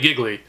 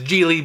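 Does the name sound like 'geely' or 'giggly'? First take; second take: giggly; geely. First: The name sounds like 'giggly', with two g sounds. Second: The name sounds like 'geely', with one g sound. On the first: The speaker calls it right. "there's fucking two G's. It's clearly Giggly" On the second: The speaker calls it wrong. "Some people pronounce it as Geely"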